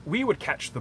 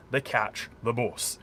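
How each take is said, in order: First: "bus" the way locals tried to say it; posh bus. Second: "bus" with a rounded northern u, like "boos" cut short; "bus" with the short Yorkshire u; Sheffield bus. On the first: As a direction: say "bus" as "bʌs", careful and proper. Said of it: "they didn't wanna sound like it". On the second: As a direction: say "bus" as "bʊs", Sheffield style, a little slower. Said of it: "your U's are pronounced glottally from right from your throat". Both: Shown as a demonstration.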